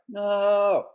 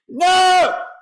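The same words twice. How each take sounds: First: It is said quietly and weakly. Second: It is shouted very loudly.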